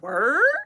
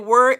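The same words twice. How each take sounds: First: It is said in a challenging, questioning way. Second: It is said in an agreeing, easygoing way. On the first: The speaker is challenging the other person. "we about to have a fight" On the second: The speaker agrees with what was said. "in agreement"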